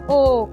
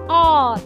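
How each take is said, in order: First: The vowel is said with the mouth half-closed. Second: The vowel is said with the mouth half-open. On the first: "posisi mulut semi tertutup" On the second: "posisi mulut semi terbuka"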